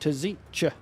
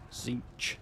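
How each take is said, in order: First: The name begins with a sounded T. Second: The name begins without a T sound. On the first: The speaker calls it wrong. "doesn't quite sound right" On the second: The speaker calls it right. "Silent T, I guess"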